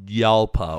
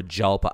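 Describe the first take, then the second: First: YALPA begun with a Y sound; Y pronunciation. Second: JALPA begun with an English J; hard J pronunciation. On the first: Host unsure of the car's name, Yalpa with Y sound. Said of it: "Is the J silent?". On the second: Host offering the other reading, Jalpa with hard J. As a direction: sound the J in "Jalpa". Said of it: "I don't know how to pronounce". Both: Shown as a demonstration.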